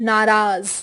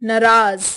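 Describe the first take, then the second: The two takes are said the same way.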